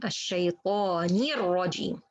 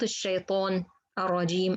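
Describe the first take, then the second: First: The linking i vowel is fully pronounced. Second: The linking i vowel is clipped short. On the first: The speaker calls it right. "كسرة and completed" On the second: The speaker calls it wrong.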